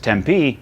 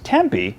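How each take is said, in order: First: It is pronounced the way locals say it. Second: It is pronounced the way outsiders say it. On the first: The speaker grew up in the city. "they grew up there" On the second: The speaker has never been to the city. "they've never been there"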